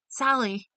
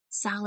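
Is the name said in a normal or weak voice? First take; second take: normal; weak. First: It is said in a normal voice. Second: It is said in a weak voice.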